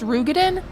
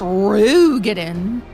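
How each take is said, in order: First: The first syllable carries no special stress. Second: The first syllable is strongly stressed. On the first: This is how others say the name. "If they're gonna be like" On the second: The name is said with exaggerated compliance. "You gotta like put emphasis on the Ru"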